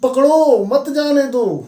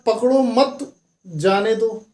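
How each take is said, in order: First: The pause comes after the word 'pakdo'. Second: The pause comes after the word 'mat'. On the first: Catch them; do not let them go. The speaker calls it right. "जो stop था उनका, वो यहाँ पे नहीं होकर के यहाँ पे था" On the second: Do not catch them; let them go. The speaker calls it wrong. "Police ने बोला पकड़ो मत, जाने दो, आप समझ गए भाई पुलिस वाले भी मिले हुए हैं चोरों से"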